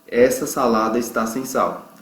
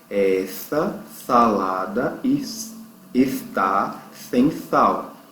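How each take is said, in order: First: The S sounds are said normally. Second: The S sounds are said with a lisp.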